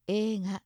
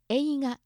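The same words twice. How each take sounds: First: 映画 said ええが with one long e; 映画 with the えい merged to a long ええ. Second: 映画 with a clear えい, each vowel sounded; spelled-out ei. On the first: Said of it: "映画ではなくて、映画". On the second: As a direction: say 映画 as えいが, not a long e. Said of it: "映画ではなくて". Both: Shown as a demonstration.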